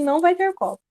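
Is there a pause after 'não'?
no. It is said without a pause after não.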